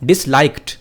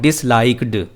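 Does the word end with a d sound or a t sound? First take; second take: t sound; d sound. First: The final sound is a t sound. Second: The final sound is a d sound. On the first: The speaker calls it right. "टी के टी की pronounce के साथ हम इसको पढ़ेंगे।" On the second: The speaker calls it wrong. "नॉट"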